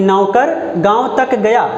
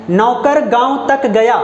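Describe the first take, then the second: First: Slower, तक pressed and falling; stress on तक. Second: Slow, तक given the weight; stress on तक. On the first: Teacher repeating the example, stress on तक. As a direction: press तक slowly. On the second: Teacher giving the example to the class, stress on तक. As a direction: lean into तक. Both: Shown as a demonstration. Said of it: "निपात शब्द है तो तक".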